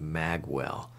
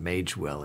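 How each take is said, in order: First: The first syllable is said like 'mag'. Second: The first syllable is said like 'mayj'. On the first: Some other people say it this way. "Some people are pronouncing it Magwell" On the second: The speaker keeps saying it this way for now. "I'm going to continue to pronounce it Magewell"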